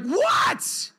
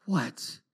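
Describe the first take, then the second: First: Very high, cracked shout back; yelling upstairs, fed up; re-enacted parental outburst; exasperated yell. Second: Soft, low, defeated reply; quiet, weary giving-in; worn down. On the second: Retold or imitated. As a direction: answer as if all the fight is gone. Worn-down father gives in.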